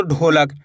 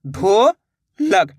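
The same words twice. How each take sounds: First: Said in the usual way. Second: "ढोलक" split into a long rising "ढो", pause, then "लक"; syllable by syllable. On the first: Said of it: "दोनों को मिला देंगे". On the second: Shown as a demonstration. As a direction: sound out "ढो ... लक" very slowly. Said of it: "दोनों को मिला देंगे तो ढोलक". ("ढोलक" को तोड़कर धीरे-धीरे: ढो ... लक)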